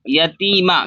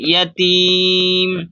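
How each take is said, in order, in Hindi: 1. शब्द छोटे अ स्वर पर खत्म होता है। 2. शब्द व्यंजन म पर खत्म होता है। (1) "मीम के ऊपर ज़बर है" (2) "सांस तोड़ेंगे तो साकिन इसको जज्म दे देंगे"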